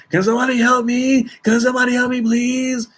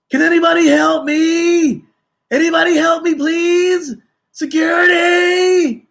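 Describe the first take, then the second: First: High, begging plea, not quite a scream; pleading for help. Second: Very high, very loud desperate shouting; frantic screaming for help. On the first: Passenger pleading over and over for help, high begging voice. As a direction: keep begging, voice pitched up and strained. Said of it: "He just kept saying over and over". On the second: Panicked passenger yelling for help across the checkpoint, shrieking. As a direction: scream for help as if someone is attacking you. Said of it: "goes off screaming and yelling". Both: Retold or imitated.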